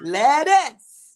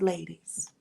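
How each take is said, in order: First: It is said in a New Orleans accent. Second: It is said in a plain accent.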